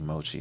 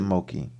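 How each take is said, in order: First: The middle consonant is a ch sound. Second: The middle consonant is a k sound. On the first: The speaker calls it right. "C H it is actually Mochi" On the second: The speaker calls it wrong. "I was just mispronouncing your name"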